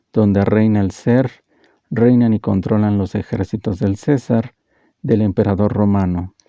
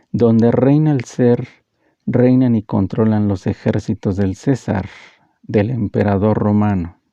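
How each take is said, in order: Both takes have the same delivery.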